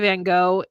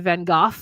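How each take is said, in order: First: It is said with an American pronunciation. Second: It is said with an English pronunciation.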